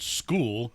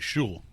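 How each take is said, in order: First: The word begins with an 'sk' sound. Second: The word begins with an 'sh' sound. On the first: It is said the expected way. "You're supposed to call it school" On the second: It is said the way it is spelled. "You spell it that way. I'm saying it that way"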